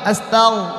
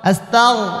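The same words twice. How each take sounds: First: The consonant after 'asta' is a throaty gh. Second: The same.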